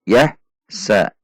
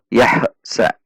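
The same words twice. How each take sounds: First: The syllables are cut apart with a break. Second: The first syllable ends with a bouncing release. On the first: "Itu dipisah" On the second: "ada juga yang memantul"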